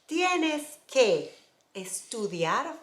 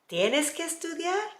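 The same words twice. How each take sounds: First: The voice falls at the end. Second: The voice rises at the end.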